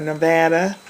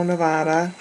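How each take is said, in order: First: Nevada, middle vowel as in cat; Nevada with short "a". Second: Nevada, middle vowel as in father. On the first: Vlogger correcting to the local way, Nevada with short "a". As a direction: say Nevada as "nuh-VAD-uh". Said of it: "I guess is how they say it". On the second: Vlogger recalling where a caller lives, Nevada with a broad "ah". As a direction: say Nevada as "nuh-VAH-duh". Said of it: "how they say it". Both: Shown as a demonstration.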